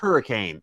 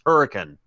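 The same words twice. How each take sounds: First: It sounds like the ordinary storm word. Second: It sounds different from the ordinary storm word. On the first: The speaker calls it wrong. "is not pronounced hurricane" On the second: The speaker calls it right. "It is pronounced hurricane"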